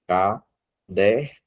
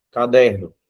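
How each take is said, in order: First: Caderno spoken very slowly as ca-der-no, each syllable apart; split into syllables. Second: Said in the usual way. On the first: Shown as a demonstration. Teacher showing the class how many syllables, slow and separated. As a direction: tap out Caderno one syllable at a time.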